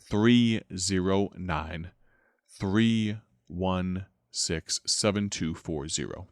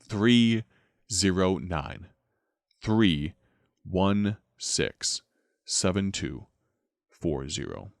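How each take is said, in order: First: The number is said rather fast. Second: The number is said more slowly.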